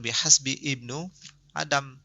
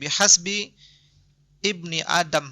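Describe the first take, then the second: First: The word before Adam ends in a u vowel. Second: The word before Adam ends in an i vowel. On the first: The speaker calls it wrong. "harusnya bukan" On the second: The speaker calls it right. "ini mudhafun ilaih ya"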